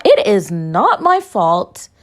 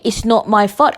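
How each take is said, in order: First: IS and NOT drawn out slowly; emphatic insistence. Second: Said in the usual way. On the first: Real, not acted. Podcaster denies blame, stressing IS and NOT slowly. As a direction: spell out "It is not my fault" slowly, weighting each word.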